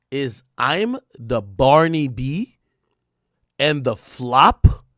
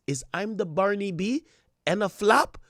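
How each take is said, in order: First: Slow, drawn-out questioning read; slow dramatic read. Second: High-pitched mock rapper-diva voice. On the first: Acted. Reading out [name]'s post to viewers, slow and dramatic. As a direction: spell it out slowly, word by word. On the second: Re-reading the post as its author, high diva impression. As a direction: imitate her, pitched up with rising questions. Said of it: "you gotta read this in a [name] voice".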